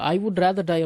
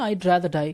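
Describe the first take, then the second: First: 'I would' is said as two full words. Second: 'I would' is shortened to one syllable, I'd. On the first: "ஐ வுட் rather டை அப்படின்னு பேசிக்கோங்க" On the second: "இந்த ஐ வுட் இதோட short form தான் ஐட்"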